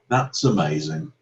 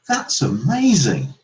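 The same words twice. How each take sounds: First: It sounds sarcastic and insincere. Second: It sounds sincere and genuinely positive. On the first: The speaker is not really impressed. "the second one sounded quite sarcastic and insincere" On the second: The speaker is truly impressed. "only the first one really conveys the positive meaning"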